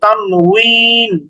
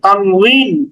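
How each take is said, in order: First: The middle consonant is a W sound. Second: The middle consonant is a V sound. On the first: This is the original Arabic way of saying it. "মূলত ওখানে উচ্চারণটা হচ্ছে ওয়াও দিয়ে" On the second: This is the local Bengali way of saying it. "ভ দিয়ে উচ্চারণ করছি"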